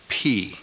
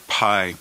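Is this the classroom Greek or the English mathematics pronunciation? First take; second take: classroom; mathematics. First: It uses the classroom Greek pronunciation. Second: It uses the English mathematics pronunciation. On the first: The speaker calls it right. "but pronounce it pi" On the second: The speaker calls it wrong. "in mathematics, you learned the letter pi"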